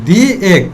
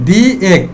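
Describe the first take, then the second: The two takes are said the same way.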